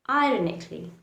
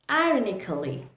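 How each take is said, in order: First: The k sound goes straight into ly. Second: An extra vowel is sounded before the final ly. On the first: The speaker calls it right. "The correct pronunciation is ironically" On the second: The speaker calls it wrong. "That is the incorrect pronunciation"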